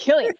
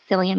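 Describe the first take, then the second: First: The name begins with a hard K sound. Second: The name begins with a soft S sound. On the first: The speaker calls it right. "it's not soft, it's killing" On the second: The speaker calls it wrong. "No, it's K"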